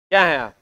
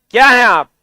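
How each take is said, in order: First: Said in the usual way. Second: Loud, punchy demand for an answer; insistent question. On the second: Real, not acted. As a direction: press the class hard for a reply. Question repeated louder after no answer. (ज़ोर से सवाल दोहराते हुए)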